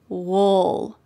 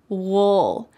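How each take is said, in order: First: It is reduced and relaxed, sounding like 'wool'. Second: The same.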